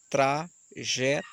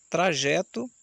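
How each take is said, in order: First: Trajeto drawn out slowly in three syllables; tra-je-to, slow and separated. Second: Said in the usual way. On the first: Shown as a demonstration. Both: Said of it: "Observe que teve três pausas de sílaba".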